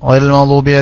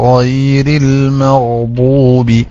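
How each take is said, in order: First: The 'y' sound is slurred into a vague sound. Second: The 'y' sound is pronounced clearly and fully. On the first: The speaker calls it wrong. "പെട്ടെന്ന് ... യാ എന്നൊരു അക്ഷരം അവിടെ ഉച്ചരിക്കുന്നില്ല. എന്തോ ഒരു ശബ്ദം ഉണ്ടാക്കുന്നു" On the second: The speaker calls it right. "ആ ഒപ്പിക്കൽസ് ഒന്നും പറ്റൂല"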